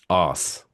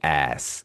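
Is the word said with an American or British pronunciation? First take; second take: British; American. First: It is said with a British pronunciation. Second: It is said with an American pronunciation. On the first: The speaker calls it right. "the way we pronounce it in England" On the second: The speaker calls it wrong. "it sounds unnatural"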